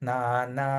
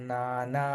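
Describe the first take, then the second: Both takes have the same delivery.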